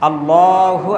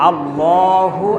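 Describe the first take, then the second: The two takes are said the same way.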